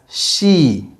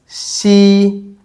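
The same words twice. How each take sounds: First: The first consonant is strong and heavy. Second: The first consonant is soft and light. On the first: The speaker calls it wrong. "The English sounds, as you might already notice, is much stronger or heavier" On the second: The speaker calls it right. "the Chinese sounds are much lighter"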